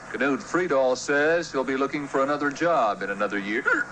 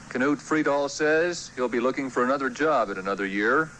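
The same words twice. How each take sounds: The two takes are said the same way.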